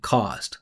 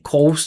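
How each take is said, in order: First: The vowel is an open ah sound. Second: The vowel is a rounded oh sound. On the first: The speaker calls it right. "I'm saying cost" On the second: The speaker calls it wrong. "He's saying cost"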